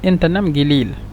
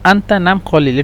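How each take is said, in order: First: It is said with a 'g' sound in 'gilil'. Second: It is said with a 'q' sound in 'qalil'. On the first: This is the regional everyday form. "সৌদির আঞ্চলিক ভাষা" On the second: This is the formal standard form. "এটা আরবি শুদ্ধ ভাষা"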